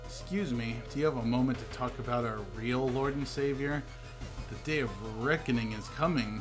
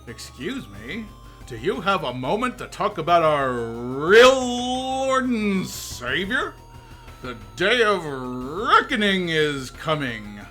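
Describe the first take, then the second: First: It is said in a plain voice. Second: It is said in a salesman voice.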